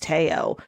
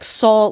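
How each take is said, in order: First: The name begins with a T sound. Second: The name begins with an S sound. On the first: The speaker calls it right. "she said actually for his name it's Teo" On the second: The speaker calls it wrong. "we thought we were supposed to pronounce it like Saul"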